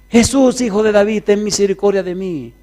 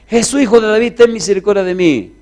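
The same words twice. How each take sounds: First: It is said at a softer level. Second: It is shouted even louder.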